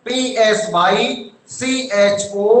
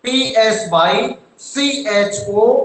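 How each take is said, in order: First: Letters spaced and very slow; slow spelling. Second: Slow spelling. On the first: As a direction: dictate each letter for the class to copy. (धीरे-धीरे spelling लिखवाते हुए) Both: Shown as a demonstration.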